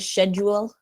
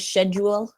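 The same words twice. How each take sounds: First: It is said the British way. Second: The same.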